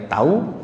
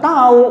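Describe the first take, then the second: First: "Tahu" said softly with a rising tune, meaning "I know". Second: "Tahu" high and loud, falling hard at the end; sharp falling tahu. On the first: Showing the audience the rising tune of "Tahu", soft. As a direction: let "Tahu" rise gently as a yes. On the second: Showing the audience the sharp falling tune of "Tahu", loud. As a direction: snap "Tahu" down with a loud drop. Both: Shown as a demonstration. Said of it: "cuman nadanya beda".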